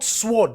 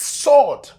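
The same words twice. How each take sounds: First: The word is said with a W sound. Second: The word is said with no W sound. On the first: The speaker calls it wrong. "not sword" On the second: The speaker calls it right. "it's sword, The W is silent"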